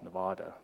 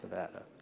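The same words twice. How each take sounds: First: The word is said with an R-like sound. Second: The word is said without an R-like sound. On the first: The speaker calls it right. "with the R" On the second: The speaker calls it wrong. "not Nevada"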